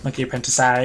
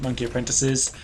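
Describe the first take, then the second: First: The last word ends with an 'eye' sound. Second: The last word ends with an 'iz' sound.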